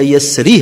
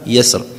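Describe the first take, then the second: First: The word ends with a short i vowel. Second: The word ends on r with no vowel. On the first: The recitation continues into the next verse. "si tu veux continuer" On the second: The recitation stops at this word. "si on arrête, on arrête sur le soukoun"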